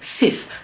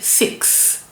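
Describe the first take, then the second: First: The word ends with a plain s sound. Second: The word ends with a ks sound. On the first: The speaker calls it right. "We say six because that X we pronounce it s" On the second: The speaker calls it wrong. "We don't say six like in English"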